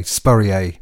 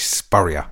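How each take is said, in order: First: Spurrier said the French way, spur-ee-AY, ending on a long AY; French-style name. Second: Spurrier said the English way, SPUR-ee-uh; plain English Spurrier, stress on SPUR and ending in -uh; English name. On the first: Retold or imitated. DJ mocks how listeners say his name, Spurrier as spur-ee-AY. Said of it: "a lot of people pronounce my name that way". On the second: Shown as a demonstration. DJ gives his own English Spurrier, SPUR-ee-uh. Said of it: "rather than very boringly English".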